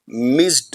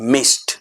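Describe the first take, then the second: First: The ending is said as an extra syllable. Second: The ending is said as a short t. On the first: The speaker calls it wrong. "मिस्ड नहीं" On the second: The speaker calls it right. "The right and effective pronunciation would be मिस्ड"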